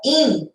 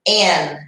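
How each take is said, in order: First: The vowel sounds like a high 'ee'. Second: The vowel sounds like a closed 'eh'. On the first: The speaker calls it wrong. "e não in" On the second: The speaker calls it right. "é um i, mas o som dele é e"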